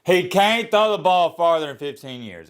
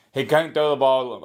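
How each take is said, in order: First: "He can't throw the ball" driven out loud and high; forceful redo. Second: Said in the usual way. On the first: Shown as a demonstration. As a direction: punch "throw" hard, saying it loud and clear. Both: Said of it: "Was that so hard to say?".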